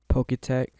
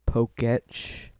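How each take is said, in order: First: The ending sounds like tech. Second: The ending rhymes with watch. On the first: The speaker calls it wrong. "instead of Poketech" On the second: The speaker calls it right. "it's actually pronounced Poketch"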